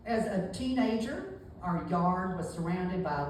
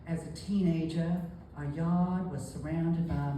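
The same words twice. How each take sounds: First: A sharp Southern accent with an edge. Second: A soft, gentle Southern accent. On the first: "Texas is kind of sharp. It uh, has an edge to it" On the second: "Charleston, of course, is going to be much softer"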